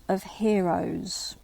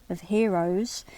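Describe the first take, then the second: First: Whispered, drawn out slowly; hushed slow reading. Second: Said in the usual way. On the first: Shown as a demonstration. Lecturer reading the riddle line to students, whispered slowly. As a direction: let the phrase fall to a slow hush.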